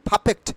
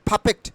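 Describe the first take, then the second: The two takes are said the same way.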